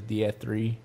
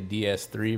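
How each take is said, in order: First: The second letter is said with an F sound. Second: The second letter is said with an S sound. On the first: The speaker calls it wrong. "but he says DF3" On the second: The speaker calls it right. "we would say DS3"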